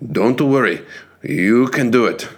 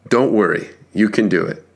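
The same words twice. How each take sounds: First: It is said in a put-on Japanese accent. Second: It is said in the speaker's normal accent.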